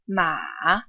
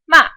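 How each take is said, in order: First: The pitch dips low, then goes back up. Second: The pitch falls quickly from high to low. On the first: "The third tone dips and goes back up" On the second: "The fourth tone quickly goes down"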